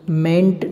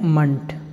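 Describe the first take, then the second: First: The vowel is a full 'e' sound. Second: The vowel is a reduced 'uh' sound. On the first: The speaker calls it wrong. "मेंट नहीं पढ़ना है" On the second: The speaker calls it right. "आपको पढ़ना है मंट"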